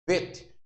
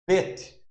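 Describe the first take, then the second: First: The word begins with a V sound. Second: The word begins with a B sound. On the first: "aí você pronuncia vet, como fosse o V" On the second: "se pronuncia bet, é B"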